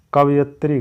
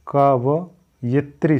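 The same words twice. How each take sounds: First: "कवयत्री" as kav-yatri, run together; wrong form demo. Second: "कवयित्री" slow, split as ka-va, yitri; correct form demo. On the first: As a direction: say "कवयत्री" with no i after the y. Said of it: "गलत है". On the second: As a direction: pause inside "कवयित्री" and sound yi clearly. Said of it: "सही है". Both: Shown as a demonstration.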